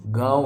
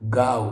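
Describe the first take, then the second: First: गाँव nasal, ending in w; nasal vowel gliding off in गाँव; correct pronunciation shown. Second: गाँव with a hard v, no nasal; wrong pronunciation shown. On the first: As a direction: say गाँव as "gaa-on". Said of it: "गाँव होता है". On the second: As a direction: say गाँव as "gaav". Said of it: "कुछ नहीं होता". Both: Shown as a demonstration.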